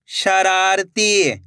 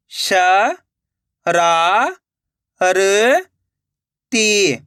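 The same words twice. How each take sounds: First: Slow, stretched reading of the whole word; joined-up word. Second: Syllable by syllable. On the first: Teacher showing learners the finished word, slowly joined up. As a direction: blend the syllables into one drawn-out word. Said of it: "तो मिलके बन जाएगा". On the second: Teacher sounding out a word for learners, syllable by syllable. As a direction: separate drawn-out syllables with long gaps. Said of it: "एक एक अक्षर का उच्चारण करके". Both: Shown as a demonstration.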